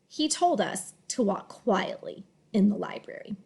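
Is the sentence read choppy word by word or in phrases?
phrases. Words are grouped in phrases with short pauses between. The speaker calls it right. "you end up having little pauses between each scoop"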